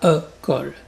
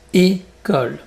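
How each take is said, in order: First: The first vowel is not a closed é sound. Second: The first vowel is a closed é sound. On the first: The speaker calls it wrong. "Et pas e-cole" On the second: The speaker calls it right. "donc plus fermé"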